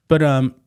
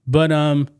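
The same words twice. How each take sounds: The two takes are said the same way.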